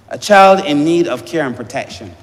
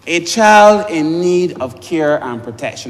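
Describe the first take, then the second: First: Said in the usual way. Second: Slower, each word weighted; slow emphatic repeat. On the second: Shown as a demonstration. MP rereading the bill's words to the house, slow and emphatic. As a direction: lean on "child" and spell it out.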